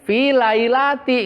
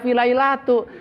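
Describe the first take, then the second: First: The last word ends with an 'i' vowel. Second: The last word ends with a 'u' vowel. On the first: The noun is in the genitive case after the preposition. The speaker calls it right. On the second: The noun is wrongly in the nominative case. The speaker calls it wrong.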